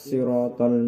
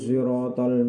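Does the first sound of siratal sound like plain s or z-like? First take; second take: plain s; z-like. First: The first sound is a plain s. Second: The first sound is blended toward a z. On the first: "huruf shad dibaca dengan sin" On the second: "dibaca dengan ismam atau gabungan antara shad dengan za"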